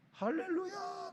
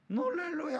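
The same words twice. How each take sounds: First: Put-on child's gleeful yell. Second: High-pitched mock wail of an exasperated mom; mother at wit's end. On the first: Preacher mimics a child running noisy in a café, high mock yell. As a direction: imitate a noisy kid crying hallelujah in a high, stretched voice. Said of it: "소리를 질러요". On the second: Preacher mimics a mom worn out by her noisy child, exasperated high cry. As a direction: imitate a mother driven to distraction, pitched high. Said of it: "막 죽을 지경이에요".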